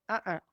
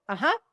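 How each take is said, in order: First: Gut no. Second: Gut yes. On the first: Answering the same question a second time, a quiet gut no. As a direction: shake it off with a quiet no. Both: Shown as a demonstration. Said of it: "in the minute gut response".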